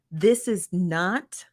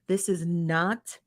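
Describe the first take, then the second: First: First take, each word slowed and spaced out; "This is not" drawn out word by word to make the point; emphatic, slow. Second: Second take, "this is not" spaced out and dropped softer; repeated slower, softer. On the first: Host setting chat rules, slow deliberate emphasis. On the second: Host repeating the rule, slower and softer. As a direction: lean on "is", slow and quieter for the repeat. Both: Real, not acted. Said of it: "and I'm gonna repeat myself".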